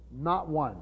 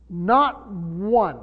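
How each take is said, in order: First: Said in the usual way. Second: "Not one" with Not punched loud and falling; emphasis. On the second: Shown as a demonstration. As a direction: hit "Not" hard, then drop on one. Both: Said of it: "so it's emphatic".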